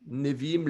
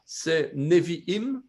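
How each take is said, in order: First: Said in the usual way. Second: Nevi'im syllabe par syllabe, très lentement, ne-vi-im; slow, careful pronunciation. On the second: Shown as a demonstration. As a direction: articule Nevi'im lentement pour la classe. (prononciation lente et appliquée de Nevi'im) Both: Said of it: "Nevi'im, les prophètes".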